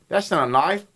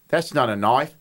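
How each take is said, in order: First: Australian vowels stretched through a smile; attempted Australian, at normal pitch; smiling Australian accent. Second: Lower-pitched try at Australian; low, tentative Australian demo; attempted Australian accent. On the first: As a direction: smile and widen the lips into Australian. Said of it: "if you make a smile". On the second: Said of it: "stretch it out". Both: Shown as a demonstration.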